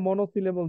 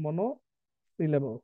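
First: Said in the usual way. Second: "monosyllable" very slow, split after মনো; broken into parts. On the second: Shown as a demonstration. Teacher giving class the new term, slow and split. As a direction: draw out "monosyllable" part by part, softly dropping away.

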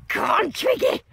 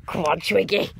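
First: Upbeat rallying call; excited cheer. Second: Breathy whispered urging; hushed cheer for a friend. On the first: Urging friend on, now aloud. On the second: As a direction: whisper the encouragement under your breath. Urging friend on, then louder. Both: Real, not acted.

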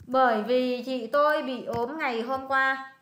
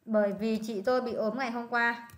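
First: "Bởi vì chị tôi bị ốm ngày hôm qua" read slowly and clearly; slow model sentence. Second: Said in the usual way. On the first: Shown as a demonstration. Tutor slowly models the Vietnamese translation for her student. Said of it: "con dịch cho coi rất là thuận lợi này". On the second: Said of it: "rất là thuận miệng này".

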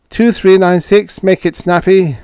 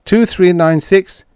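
First: Calling the number louder, impatient. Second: Calling a number into the radio, rising. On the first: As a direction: hail again, hurry them. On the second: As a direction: hail the ship loud and urgent. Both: Acted. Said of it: "Retief called".

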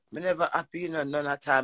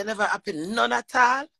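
First: Said in the usual way. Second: Incredulous echo. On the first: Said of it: "Him say". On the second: Retold or imitated. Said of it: "Me say".

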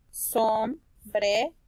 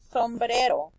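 First: Sombrero slowly as som, bre, ro; split into syllables. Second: Said in the usual way. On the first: Shown as a demonstration. Teacher reading by syllables, sombrero slow and split. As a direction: break sombrero into three with pauses.

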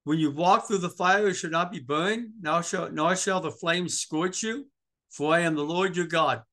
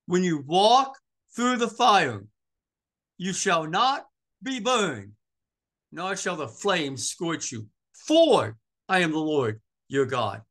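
First: Said in the usual way. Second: Slow, punched verse with pauses, WALK and FOR hit hard; emphatic scripture reading. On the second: Shown as a demonstration. Preacher repeating the verse to the congregation, slow and emphatic. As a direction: drive it home phrase by phrase, loud on "walk" and "For".

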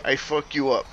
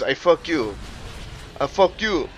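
First: Said in the usual way. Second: Imitated Haitian accent, "fuck you" with the "up" missing; Haitian drill sergeant. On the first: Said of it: "he couldn't say". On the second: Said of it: "drill sergeant that was Haitian".

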